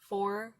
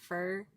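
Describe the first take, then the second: First: The vowel is full, like 'four'. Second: The vowel is reduced, like 'fur'. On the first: "Or um for" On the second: "we go fur"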